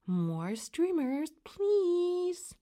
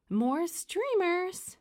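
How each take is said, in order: First: Drawn-out prompt, rising high on PLEASE; reminding. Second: High, drawn-out demand. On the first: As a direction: remind a child of manners, stretching please. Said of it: "Mom reminded her". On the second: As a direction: demand it like a bossy child, pitched up. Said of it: "D W demanded". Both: A narrator's reading.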